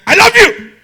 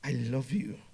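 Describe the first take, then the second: First: Very loud, high-pitched shout; angry declaration. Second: Soft, low, intimate voice; tender love declaration. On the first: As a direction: yell the endearment harshly at full force. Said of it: "two different meanings". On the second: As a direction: say it gently and sincerely, well below speaking volume. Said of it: "Same sentence, two different meanings". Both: Shown as a demonstration.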